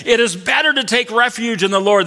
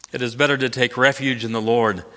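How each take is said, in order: First: Higher, proclaimed congregation reply; congregation's response. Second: Said in the usual way. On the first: Shown as a demonstration. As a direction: answer as the gathered congregation would. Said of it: "They say to him". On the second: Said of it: "They say that twice".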